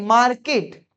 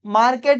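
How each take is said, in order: First: मार्केट with a short close "-kit" ending, "MAAR-kit"; correct pronunciation. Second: मार्केट with "-ket" at the end, "MAAR-ket"; wrong pronunciation. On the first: Teacher gives the correction, मार्केट ending in "-kit". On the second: Teacher rejects this reading, मार्केट ending in "-ket". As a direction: say मार्केट with an open e in the last syllable. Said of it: "मार्केट नहीं". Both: Shown as a demonstration.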